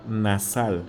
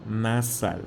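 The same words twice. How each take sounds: The two takes are said the same way.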